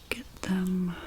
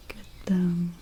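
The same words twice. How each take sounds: The two takes are said the same way.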